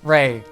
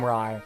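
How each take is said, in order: First: The name has the vowel of 'day'. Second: The name has the vowel of 'eye'. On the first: The speaker calls it right. "it's pronounced like Ray, like Raven" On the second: The speaker calls it wrong. "I'm gonna be calling him Rye"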